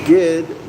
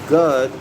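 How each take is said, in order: First: The middle vowel is an I sound. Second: The middle vowel is a U sound. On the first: "G I D" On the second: "G U D"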